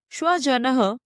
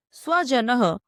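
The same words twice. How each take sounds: First: स्वजनः said with sh, shva-ja-nah; sh sound. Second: स्वजनः said with a plain s, sva-ja-nah; clear s sound. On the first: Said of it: "स्वजनः अर्थात कुत्ता". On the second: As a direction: start स्वजनः with a crisp s, not sh. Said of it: "स्वजनः अर्थात अपने लोग". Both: Shown as a demonstration.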